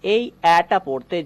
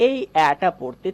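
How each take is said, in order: Both takes have the same delivery.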